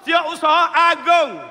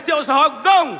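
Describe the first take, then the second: First: The last word is said in full as 'agung'. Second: The last word is clipped to 'gong' in Kelantan style. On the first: The speaker calls it right. "kena sebut molek setiausaha agung" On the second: The speaker calls it wrong. "Kalau Kelantan kalau sebut gong"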